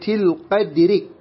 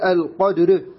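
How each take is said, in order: First: The final r is pronounced thin. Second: The final r is pronounced thick. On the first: The speaker calls it right. "على الترقيق نقول في ليلة القدر" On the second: The speaker calls it wrong. "لا نقول القدر، القدر خطأ نفخمها"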